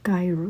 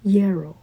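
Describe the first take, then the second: First: It begins with a J sound. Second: It begins with a Y sound. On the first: The speaker calls it wrong. "gyro is not gyro" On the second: The speaker calls it right. "is yarrow or something"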